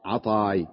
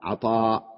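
First: عطاي said with a final ay glide, lower and softer; ending in ya. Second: عطاء said with a long open final aa and a glottal stop; final hamza in عطاء, quietly; ending in hamza. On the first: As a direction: close عطاي on the ya sound, dropped low. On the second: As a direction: end عطاء on the hamza, soft and low. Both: Shown as a demonstration. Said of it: "أصلها عطاي".

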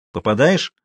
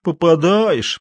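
First: "Попадаешь" as a short question; brief inquiring "Попадаешь". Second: High, drawn-out contemptuous repetition; sneering, falling echo; scornful echo. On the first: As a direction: ask "Попадаешь" briskly and lightly. Жуков переспрашивает. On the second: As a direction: mimic the question with disdain, stretching it. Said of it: "презрительно выговорил Матвей". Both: A narrator's reading.

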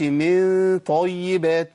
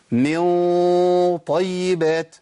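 First: Slow "من طيبات" with the hum left light despite the ط; wrong, thin ghunnah. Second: Slow "من طيبات", nasal hum thickened to match the ط; heavy ghunnah. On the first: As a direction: hold the ن of "من" as a long thin, unrounded hum before "طيبات". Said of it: "ما ينفعش". (غنة مرققة خطأ في "من طيبات") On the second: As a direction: hold the ن of "من" as a long, dark, rounded hum before "طيبات". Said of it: "الغنة تفخم". (غنة مفخمة ممدودة في "من طيبات") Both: Shown as a demonstration.

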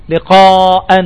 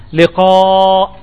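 First: "لقاء" pronounced liqaa-an; tanween with fatha. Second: Said in the usual way. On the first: Shown as a demonstration. Teacher gives another tanween example, "لقاء" ending -an. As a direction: add a clear -an after the hamza of "لقاء". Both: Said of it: "يوضع التنوين على الهمزة".

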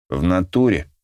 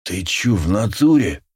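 First: Lightly voiced gangster agreement; a hint of street thug slang; russian street thug. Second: Wheezing thug voice; hoarse wheeze. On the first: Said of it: "поддакнул я и решил, что перебарщиваю". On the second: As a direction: rasp it out hoarsely. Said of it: "засипел он". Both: A narrator's reading.

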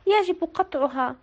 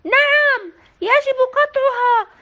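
First: Sad voice. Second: Loud, high يجب قطعها, stress on يجب; crowd shout. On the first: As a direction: admit it with sorrow. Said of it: "بصوت حزين". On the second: Villagers agreeing with mayor, loud shout. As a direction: shout it together as a mob. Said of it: "هنا صاح الجميع". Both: A narrator's reading.

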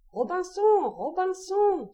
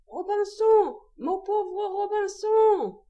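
First: High, drawn-out plaintive squawk; strident, tearful parrot. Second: Very high, slow plaintive parrot wail; very strident, tearful parrot. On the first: Abandoned parrot calls its master from the ship's end, strident and tearful. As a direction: stretch the name on a high, strident wail. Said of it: "une voix stridente, éplorée". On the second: Forgotten parrot pleads for its master, very strident and tearful. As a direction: hold each name high and piercing, very drawn out. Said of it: "plus stridente encore et plus éplorée". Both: A narrator's reading.

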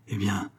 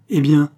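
First: Soft, subdued lead-in; hesitant. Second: Loud, raised challenge; demanding. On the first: Husband reluctantly begins his confession, hesitant. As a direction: drop the voice, reluctant to go on. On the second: Wife presses her husband to go on, demanding. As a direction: fire it back as a question. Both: A narrator's reading.

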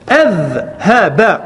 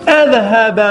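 First: أذهب very slow, final ba with a clear fatha; slow vowel demo. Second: Said in the usual way. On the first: Shown as a demonstration. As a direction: stretch أذهب to show the fatha on the ba. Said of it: "انظر حركة الباء، هنا فتحة". (أذهب ببطء مع إظهار فتحة الباء) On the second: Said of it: "انظر حركة الباء".

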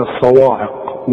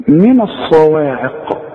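First: الصواعق with a heavy و, imitating the mistake; mock wrong reading. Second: من الصواعق slow, with a light و; careful recitation. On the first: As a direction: say الصواعق with a thick و. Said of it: "أنت هتقول لي". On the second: Shown as a demonstration. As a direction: recite من الصواعق slowly and clearly. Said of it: "تعرف تقولها زي ما أنا قلتها".

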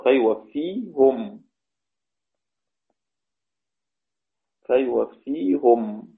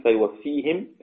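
First: فيوفيهم slow with damma, fejwefihum; Ruways reading. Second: فيوفيهم with final kasra, fejwefihim; Hafs reading. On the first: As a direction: draw out فيوفيهم ending -hum. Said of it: "رويس يقرأ". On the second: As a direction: read فيوفيهم ending -him. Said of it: "حفص يقول". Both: Shown as a demonstration.

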